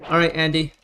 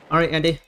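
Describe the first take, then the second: No difference in how they are said.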